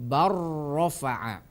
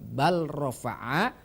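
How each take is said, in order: First: The L merges into a doubled R sound. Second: The L is pronounced clearly before the R. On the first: The speaker calls it right. "akan tetapi dilafalkan bar rofa'a" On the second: The speaker calls it wrong. "bukan bal rofa'a"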